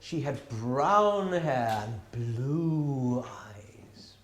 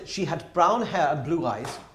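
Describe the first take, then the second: First: The describing words have drawn-out, lengthened vowels. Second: The describing words are said at normal length. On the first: The description is made more interesting. "You're making the vowels a, a bit longer" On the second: It is a plain description. "that would be some one thing"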